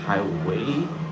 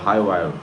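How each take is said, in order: First: The name ends with a 'way' sound. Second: The name ends with a 'wire' sound. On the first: This is the speaker's usual way of saying it. "I always say it's Highway" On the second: This is another way people say it. "just depends on how you pronounce it"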